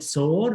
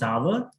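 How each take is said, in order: First: The word rhymes with 'more'. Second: The word rhymes with 'power'. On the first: The speaker calls it wrong. "sometimes we call it soar" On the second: The speaker calls it right. "but actually pronunciation is sour"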